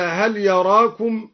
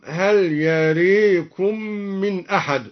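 First: Said in the usual way. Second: يريكم, the alif of يراكم tilted to "ē", "yarēkum"; imala in يراكم. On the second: Shown as a demonstration. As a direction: say يريكم with a long "ē". (إمالة ألف يراكم) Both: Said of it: "أما لا يراكم".

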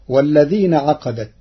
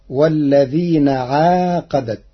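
First: Said in the usual way. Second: عاقدت with a long aa after the ain; Warsh reading. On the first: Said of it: "قرأ ورش كلمة عقدت". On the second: Shown as a demonstration. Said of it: "بمد العين مدا طبيعيا، فتصير".

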